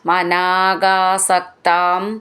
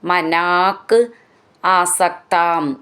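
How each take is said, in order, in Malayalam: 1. വാക്കുകൾ ചേർത്ത് ഒറ്റ വാക്കായി ഉച്ചരിക്കുന്നു. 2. വാക്കുകൾ വെവ്വേറെയാണ് ഉച്ചരിക്കുന്നത്, ചേർക്കാതെ.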